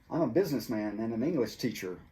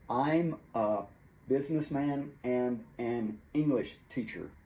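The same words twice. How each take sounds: First: The words are linked and reduced together. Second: Each word is said separately, broken up. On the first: The speaker calls it right. "We say" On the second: The speaker calls it wrong. "We don't say it broken up like that"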